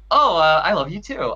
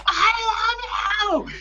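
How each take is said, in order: First: Offhand, caught-off-guard delivery; casual reply. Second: Drawn-out, very high mock scream; imitated scream. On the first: Retold or imitated. Fan replays his reply to the idol, casual and offhand. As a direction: toss it back casually, a little unready. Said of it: "like, so casually". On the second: Fan contrasts idol's farewell with his own, high mock scream. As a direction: stretch it into a slow high squeal. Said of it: "she screams at the top of her lungs".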